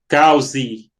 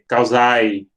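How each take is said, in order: First: The word ends with an 'e' sound. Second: The word ends with an 'ai' sound. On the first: "Outros dizem é" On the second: "outros dizem ae"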